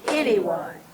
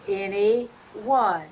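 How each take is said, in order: First: The two parts are said quickly as one word. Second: The two parts are said separately with a pause.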